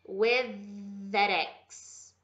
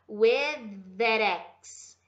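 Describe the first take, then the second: First: The two th sounds merge into one. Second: The same.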